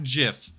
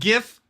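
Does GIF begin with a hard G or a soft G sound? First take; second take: soft; hard. First: It begins with a soft G sound. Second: It begins with a hard G sound. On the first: The speaker calls it wrong. "not GIF" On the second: The speaker calls it right. "Hashtag hard G"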